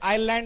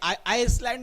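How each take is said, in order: First: No s sound is said in the middle. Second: An s sound is said in the middle. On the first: The speaker calls it right. "आयलँड असतो" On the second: The speaker calls it wrong. "बघा हे आयसलँड नसते"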